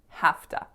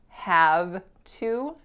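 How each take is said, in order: First: The words blend into a short reduced form. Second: Both words are said fully and separately. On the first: "becomes have to" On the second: "Have to very frequently becomes"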